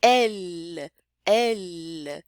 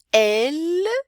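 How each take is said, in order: First: "Elle" repeated lower, open E, L held at the end; French elle repeated. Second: "Elle" with an open E and a clear L, louder; French elle. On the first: Teacher repeats the French word for students, low and careful. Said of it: "é um E, né?". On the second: Teacher models French for students, loud and clear. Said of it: "o feminino, é um E". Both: Shown as a demonstration.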